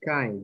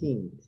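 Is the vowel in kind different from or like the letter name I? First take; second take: letter name; different. First: The vowel sounds like the letter name I. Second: The vowel does not sound like letter I. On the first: The speaker calls it right. "esta palabra es kind" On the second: The speaker calls it wrong. "not kind"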